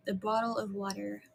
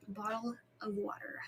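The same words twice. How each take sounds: First: Said in the usual way. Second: Hushed, whispery repeat; very soft whisper, trailing down; whispered echo. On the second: Real, not acted. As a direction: whisper it softly to yourself. Echoes the same words in whisper.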